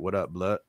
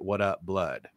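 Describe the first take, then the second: First: The final D of blood is left off. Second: The final D of blood is clearly pronounced. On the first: "they didn't always pronounce the D, so it was like" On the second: "they would say"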